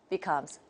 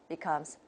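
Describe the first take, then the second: Both takes have the same delivery.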